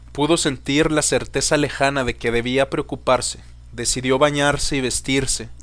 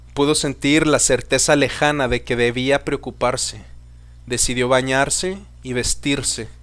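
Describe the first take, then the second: No difference in how they are said.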